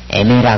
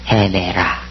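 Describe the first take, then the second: First: The word begins directly with a vowel. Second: The word begins with an h sound. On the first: The speaker calls it wrong. "에메라 그러면 안 되겠죠?" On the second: The speaker calls it right. "거친 순투가 있으니까 해"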